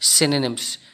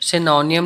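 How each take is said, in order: First: The word ends with a short 'nims' sound. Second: The word ends with a 'nee-um' sound. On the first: The speaker calls it right. "इसकी pronunciation जो है वो होती है सिनोनिम्स" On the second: The speaker calls it wrong. "इनकी pronunciation सिनोनियम नहीं होती है"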